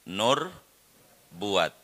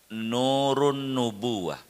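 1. Frasa itu diucapkan singkat dan menyatu. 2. Frasa itu diucapkan lengkap, setiap suku kata. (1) "orang kampung menyebut doa nur buat" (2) "Yang benarnya nurun nubuwah"

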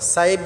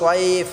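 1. প্রথম 's' ধ্বনিটি হালকা ও পাতলা। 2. প্রথম 's' ধ্বনিটি ভারী ও মোটা। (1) "সাইফ বললে হবে না।" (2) "সোয়ারটাকে আমরা মোটা করে উচ্চারণ করব"

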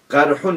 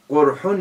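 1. İlk sesli harf açık bir a sesidir. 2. İlk sesli harf yuvarlak bir u sesidir. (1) "Ve kile bil fethi el cirahatu" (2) "Ve bil dammi elemuha"

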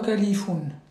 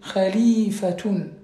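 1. Le mot finit par -oun, sans son t. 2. Le mot finit par -atun, avec un son t. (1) "c'est pas califoun" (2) "Il y a un tas à la fin"

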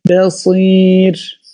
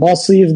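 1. İlk hece ince, ön bir e sesi taşır. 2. İlk hece kalın, açık bir a sesi taşır. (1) "Ba harfi de incedir" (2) "Basir demeyeceğiz"

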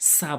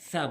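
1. ব্যঞ্জনটি hissing 's' ধ্বনি। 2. ব্যঞ্জনটি লিসপড 'th' ধ্বনি। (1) "সা সা বলা যাবে না" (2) "সা উচ্চারণ হয় জিব্বার আগা তাতের আগা"

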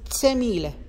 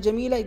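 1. يبدأ الاسم بصوت 'ts'. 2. يبدأ الاسم بصوت 'j'.

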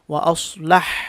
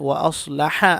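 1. শেষ শব্দটি সাকিন ব্যঞ্জনে শেষ হয়েছে। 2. শেষ শব্দটি একটি হ্রস্ব স্বরে শেষ হয়েছে। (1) "আমি থামার সময় পড়েছি ওয়া আসলাহ, সাকিন করে থামছি" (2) "এখানে যেমন দেখেন ওয়া আসলাহা আছে"

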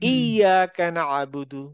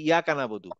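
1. 'y' ধ্বনিটি একটু চাপ দিয়ে দ্বিত্ব করা হয়। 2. 'y' ধ্বনিটি ছোট ও একক। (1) "এটা হবে ইয়াকা নাবুদু ... ইয়াতে গিয়ে একটা ধাক্কা হবে" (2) "অনেকে অনেকে এটাকে পড়ার সময় বলে কি"

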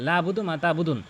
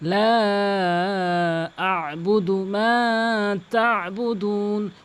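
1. 'La' ছোট, 'budu'-র আগে কোনো গলার ব্যঞ্জন নেই। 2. 'La' লম্বা, 'budu'-র আগে গলার একটি ব্যঞ্জন আছে। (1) "অধিকাংশ লোক টানে না, লা বুদু বলে ... এভাবে হবে না আসলে" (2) "হলকের মাঝখান থেকে আ বুদু"

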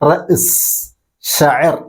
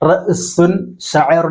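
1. ഓരോ വാക്കും അവസാനം 'un' എന്ന ശബ്ദം ചേർക്കാതെയാണ് ഉച്ചരിക്കുന്നത്. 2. ഓരോ വാക്കും അവസാനം 'un' എന്ന ശബ്ദം ചേർത്താണ് ഉച്ചരിക്കുന്നത്. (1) "പക്ഷെ ഉച്ചരിക്കേണ്ടത് എങ്ങനെയാണ്? റഅ്സ് ഷഅർ എന്നാണ്" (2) "എഴുത്തിൽ റഅ്സുൻ ഷഅറുൻ എന്നൊക്കെ ഉണ്ടാകും"

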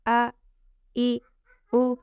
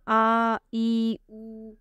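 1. स्वर छोटे रखे जाते हैं। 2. स्वर खींचकर लंबे बोले जाते हैं। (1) "हमने ज़बर ज़ेर पेश को ज़रा भी खींच कर नहीं अदा करना" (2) "वो ज़बर ज़ेर पेश को खींच कर पढ़ देते हैं, आ ई ऊ ऐसे पढ़ देते हैं"

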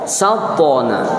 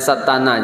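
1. Huruf t dan n disambung tanpa vokal. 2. Sebuah vokal disisipkan di antara t dan n.

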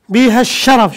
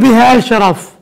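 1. تُدغم أل التعريف في صوت 'sh' مشدّد. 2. تُلفظ الألف واللام منفصلتين. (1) "شوف ما زال يلفظ الالف واللام" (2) "يعني ما تقول بها الشرف يوقف الوزن"

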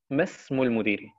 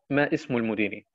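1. Die Wörter werden ohne i-Laut dazwischen verbunden. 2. Der i-Laut wird ausgesprochen, damit die Wörter getrennt bleiben. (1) "Ich sagte Mesmul Mudiri" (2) "Ich habe nicht gesagt Ma Ismul Mudiri"

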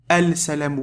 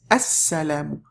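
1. Le L se prononce devant le S. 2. Le L est muet et le S se double. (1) "Tu vas pas dire al-salamu alaykum" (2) "Non, c'est as-salamu"

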